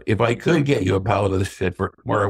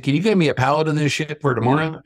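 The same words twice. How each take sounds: First: Said in the usual way. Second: Higher-pitched Kentucky imitation; heavy Kentucky accent. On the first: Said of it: "I go". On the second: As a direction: ask it as a Kentucky good old boy. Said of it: "in his heavy Kentucky accent".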